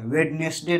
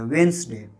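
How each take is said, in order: First: वेडनेसडे in three syllables, "wed-nes-day"; misreading वेडनेसडे with the D pronounced; first D sounded. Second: वेंसडे falling and low, as "wens-day"; silent first D. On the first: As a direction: voice every written syllable of वेडनेसडे. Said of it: "नहीं कहा जाता है". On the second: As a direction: say वेंसडे in two syllables without the first D. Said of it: "इसको वेंसडे कहा जाता है". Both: Shown as a demonstration.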